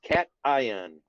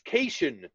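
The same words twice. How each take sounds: First: The word is said in the standard way. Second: The word is said in a misread way. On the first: The speaker calls it right. "It's pronounced cation" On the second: The speaker calls it wrong. "that's not how you pronounce it"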